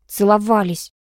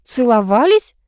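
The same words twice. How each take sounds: First: Mild, curt bark with falling tune; grudging snap, only lightly voiced; barked answer. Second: Stunned question, rising high; higher, incredulous rise at the end; taken aback. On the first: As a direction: blurt it out crossly, ending down. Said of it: "рявкнула Алка". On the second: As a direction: echo it in disbelief. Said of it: "опешила я". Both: A narrator's reading.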